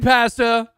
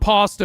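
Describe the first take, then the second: First: Pasta is said with a Canadian accent. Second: Pasta is said with a non-Canadian accent. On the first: The speaker calls it right. "because I'm Canadian" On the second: The speaker calls it wrong. "not pasta"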